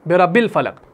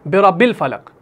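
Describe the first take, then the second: The two takes are said the same way.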